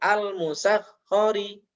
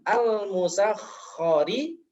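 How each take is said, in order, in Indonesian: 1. Bunyi kh terputus tanpa aliran. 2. Bunyi kh terus mengalir secara bersambung. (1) "menghilangkan sifat rokhawahnya atau mengalirnya suara" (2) "Yang seharusnya diucapkan"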